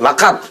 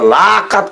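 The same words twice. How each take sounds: First: The first vowel is short. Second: The first vowel is drawn out long. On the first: The speaker calls it right. "বাচ্চা কইরা" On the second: The speaker calls it wrong. "লম্বা বাড়ি হইলে অর্থ পরিবর্তন হয়ে যায়"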